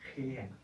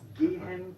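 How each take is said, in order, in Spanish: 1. La g es una fricativa gutural. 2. La g es una oclusiva dura. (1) "no decimos gehen" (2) "la G en alemán se pronuncia siempre G"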